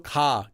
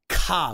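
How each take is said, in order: First: The k is said with no puff of air. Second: The k is said with a strong puff of air. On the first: The speaker calls it right. "Imagine a K, but minus the air" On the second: The speaker calls it wrong. "K is ka with lots of air"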